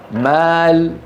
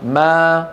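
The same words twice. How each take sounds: First: مال drawn out slowly, ending on l; slow, held maal with closed l; pause on the lam. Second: ما held long and left standing alone; pause on ma. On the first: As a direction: stop on a vowelless lam in مال. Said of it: "فلنا أن نقف". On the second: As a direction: stop after a stretched ما, without lam. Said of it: "أن نقف اضطرارا أو اختبارا". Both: Shown as a demonstration.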